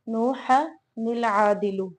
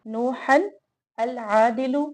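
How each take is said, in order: First: The words are linked with an inserted 'nil' sound. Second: The words are read separately, ending in -an.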